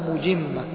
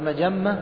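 First: The first vowel is 'u', the second 'i' (mujimma). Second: The first two vowels are both 'a' (majamma). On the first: "ويقال بضم الميم وكسر الجيم" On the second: "فبفتح الميم والجيم"

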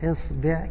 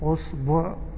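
First: Both vowels are i. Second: Both vowels are u. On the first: "كسرة كسرة" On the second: "ضمة ضمة"

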